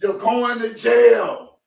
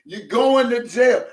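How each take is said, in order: First: Slow, high shouted verdict; mock-stern Levi, drawn out. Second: High, slow mock-stern verdict; Levi's voice again, drawn out. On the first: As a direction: bellow it like Levi passing sentence. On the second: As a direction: announce it like Levi. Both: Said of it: "In my Levi voice".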